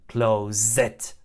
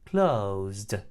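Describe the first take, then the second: First: The ending is not a plain blended D sound. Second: The ending is a plain blended D sound. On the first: The speaker calls it wrong. "Not closed" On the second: The speaker calls it right. "Final ed is pronounced D after voiced sounds"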